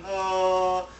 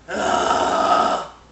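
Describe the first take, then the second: First: The voice is clean and smooth. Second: The voice is gritty and distorted.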